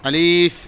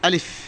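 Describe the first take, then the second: First: The word is said slowly with a drawn-out vowel. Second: The word is said quickly without drawing out. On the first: The speaker calls it wrong. "এরম পড়া যাবে না।" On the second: The speaker calls it right. "একটু তাড়াতাড়ি, টানা যাবে না।"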